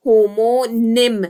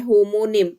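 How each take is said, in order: First: "homonym" drawn out very slowly, a little louder; slow, stressed repeat. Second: Said in the usual way. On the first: Shown as a demonstration. Teacher to students, repeating the term slowly and clearly. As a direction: spell it out for the class, each syllable held.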